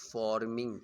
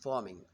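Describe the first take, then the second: First: The R sound is fully pronounced. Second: The R sound is softened and held back. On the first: The speaker calls it wrong. "It's not forming" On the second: The speaker calls it right. "it's forming"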